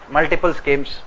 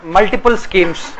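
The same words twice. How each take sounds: First: Said in the usual way. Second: Slow, deliberate dictation pace. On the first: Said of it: "repeated at normal pace". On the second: Shown as a demonstration. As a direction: spell out "multiple schemes," slowly so students can write. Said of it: "dictating slowly for students".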